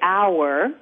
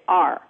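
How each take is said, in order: First: The word is said with two syllables, like 'hour'. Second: The word is said like the letter R. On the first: "they actually don't say our" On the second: "They say R. The letter R"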